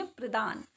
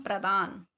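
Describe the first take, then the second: First: प्रदान with an "i" after pr; mispronounced प्रदान. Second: प्रदान with an open "a" after pr; correct प्रदान. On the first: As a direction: say प्रदान as "pri-daan". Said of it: "अगर हम ऐसे लिखते हैं तो इसको बोलेंगे". (प्रदान को "प्रिदान" बोलना) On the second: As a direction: say प्रदान as "pra-daan". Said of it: "इन दोनों में डिफरेंस है". (प्रदान को "प्र-दान" बोलना) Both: Shown as a demonstration.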